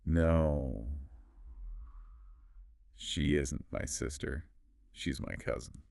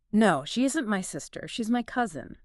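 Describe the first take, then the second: First: Very slow, low, soft model sentence; long pause after NO, sinking lower and softer. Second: Natural conversational pace; a little faster. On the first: Teacher putting the whole sentence together, very slowly. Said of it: "together now very slowly". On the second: Teacher modelling the sentence more naturally, a little faster. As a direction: flow through it without breaks. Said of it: "saying it a little faster, more naturally". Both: Shown as a demonstration.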